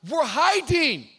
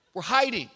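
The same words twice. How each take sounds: First: Loud, high yelled answer; loud reply. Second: Said in the usual way. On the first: Retold or imitated. Adam yelling back to God, loud. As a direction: blurt it out loudly. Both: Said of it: "God goes".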